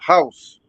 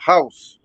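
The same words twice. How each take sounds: First: It is said with a Chinese accent. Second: The same.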